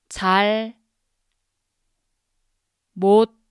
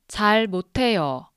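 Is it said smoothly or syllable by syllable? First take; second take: syllable by syllable; smoothly. First: It is said slowly, syllable by syllable. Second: It is said smoothly at normal speed.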